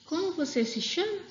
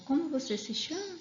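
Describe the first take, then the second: First: "Como você se chama?" com voz mais aguda e subida no fim; entonação de pergunta. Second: "como você se chama?" mais agudo e subindo no fim; entonação de pergunta. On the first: (professora mostra a entonação da pergunta) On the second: (professora repete a pergunta com entonação) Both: Shown as a demonstration. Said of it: "Até na hora de ler também muda a entonação".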